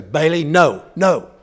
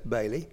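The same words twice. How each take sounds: First: Loud, firm no to the dog; firm scolding. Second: Softer, lower, gentle calling of the name; just breathe the name gently, lower and softer. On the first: Owner scolding the dog away from cat food, loud and firm. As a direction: stop the dog cold, loud and stern. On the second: Owner gently reminding the trained dog, soft and low. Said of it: "very gently say". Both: Retold or imitated.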